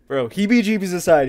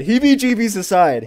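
First: Said in the usual way. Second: "heebie-jeebies aside" said again, higher and louder; louder repeat. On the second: Shown as a demonstration. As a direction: push the repeat up, insisting.

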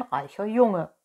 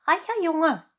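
First: Lightly voiced persuasive fox; fox's promise. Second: High, loud cat echo, fully voiced; whispering cat. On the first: Fox promises Pinocchio riches, lightly voiced. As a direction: make the promise in a fox's everyday voice. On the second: Cat echoes the fox's promise to Pinocchio, high-pitched. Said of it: "flüsterte die Katze". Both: A narrator's reading.

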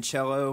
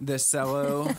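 First: Cello with CH, CHELL-o; ordinary CH at the start of cello; standard pronunciation. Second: Cello said as SELL-o; playful cello with an S sound; joking Kentucky pronunciation. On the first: Real, not acted. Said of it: "Don't you mean cello?". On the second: Pretend. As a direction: say cello with S in place of CH. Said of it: "that's what it's called".

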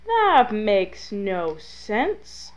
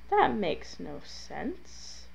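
First: Very slow, stretched-out disbelief; drawn-out exasperation. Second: Soft, slow, baffled muttering to oneself; quiet bafflement. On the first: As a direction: drag every word out in exasperation. Repeats complaint, more exasperated. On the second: Baffled by failed fire trick. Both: Real, not acted.

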